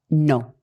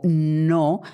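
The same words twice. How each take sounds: First: The word is short and dry. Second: The word is stretched out longer. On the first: "El primer no es mucho más seco, no está estirado en duración" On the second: "ha durado exactamente lo mismo que el gesto"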